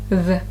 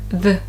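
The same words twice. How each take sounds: First: The vowel is reduced and weak. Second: The vowel is reduced and weak.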